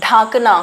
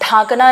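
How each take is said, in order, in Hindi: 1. पहला स्वर लंबा और अनुनासिक है। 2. पहला स्वर लंबा और अनुनासिक है।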